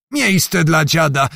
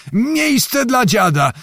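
First: Put-on old beggar bellowing for room; shouting for room. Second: Miejsce dla dziada yelled much higher and slow; old man yelling over the crush at the ferry; shrill high shout. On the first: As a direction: push through the crowd with a slow bellow. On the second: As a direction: pitch the repeated call way up to be heard. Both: A narrator's reading. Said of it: "krzyczał Zagłoba".

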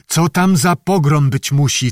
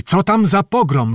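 First: Calling out eagerly. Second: Repeated question pitched much higher, stress on tam; calling out louder. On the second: The lieutenant calls to Zachar from the window, higher and louder. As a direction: call the question out again, more eagerly. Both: Acted. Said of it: "wołał do Zachara".

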